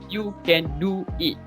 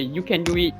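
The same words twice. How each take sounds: First: The words are said separately, one by one. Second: A w sound links 'do' and 'it'. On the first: The speaker calls it wrong. "we don't say w- you can do it. No, we don't say one by one" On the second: The speaker calls it right. "We say you can do it"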